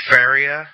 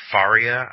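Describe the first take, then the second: First: Faria said as FAIR-ee-uh; alternative pronunciation. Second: Faria said as FAR-ee-uh; alternative pronunciation. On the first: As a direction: say Faria with an "air" vowel in the first syllable. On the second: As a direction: say Faria with an open "ah" in the first syllable. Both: Real, not acted. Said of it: "I don't know how it's pronounced".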